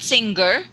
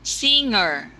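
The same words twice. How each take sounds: First: A hard g sound follows the ng. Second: The ng is said without a hard g. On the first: The speaker calls it wrong. "not singer" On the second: The speaker calls it right. "no G sound"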